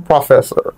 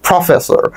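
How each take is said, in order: First: Said in the usual way. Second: "professor" with a forceful English-style opening; stress on first part. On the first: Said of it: "ধরো professor". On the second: Shown as a demonstration. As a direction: lean into the first sound of "professor" like a sahib. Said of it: "প্রথম অংশে একটু জোর দিলাম".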